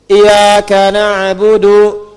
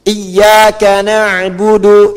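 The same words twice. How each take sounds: First: Slow, loud chant, single light y in "iyyaka"; without tasydid. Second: Slow, loud recitation, doubled y in "Iyyaka"; with tasydid. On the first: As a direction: recite "iyyaka na'budu" as iya-ka, y not doubled. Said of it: "kalau Anda tidak pakai tasydid". ("iyyaka na'budu" dilantunkan tanpa tasydid, ya ringan) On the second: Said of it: "Tapi kalau Anda tidak pakai tasydid". ("Iyyaka na'budu" dilantunkan lambat dengan tasydid pada ya) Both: Shown as a demonstration.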